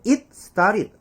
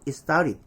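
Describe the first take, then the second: First: "it started" as "it, star-rid". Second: "it started" as "i-starid". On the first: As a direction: stop clearly on the T of "it". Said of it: "안 하고". ('잇 스따릿'으로 끊어서) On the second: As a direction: drop the T of "it", run on into "started". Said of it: "이럴까요?". ('이스따릿'으로 이어서) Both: Shown as a demonstration.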